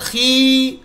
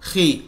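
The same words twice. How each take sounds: First: The vowel is stretched out long. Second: The vowel is short and smooth. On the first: The speaker calls it wrong. "खींचकर पढ़ना भी गलत है" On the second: The speaker calls it right. "बगैर खींचे के और बगैर झटका दिए के पढ़े"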